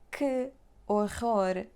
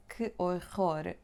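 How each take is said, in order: First: "Que horror" slow with a hard scraped R; exaggerated harsh R; overdone scraped R. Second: Gentle back R; slow careful R. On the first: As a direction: make "Que horror" sound strained. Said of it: "don't make it more difficult". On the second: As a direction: ease through "Que horror". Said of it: "that one that you hate". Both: Shown as a demonstration.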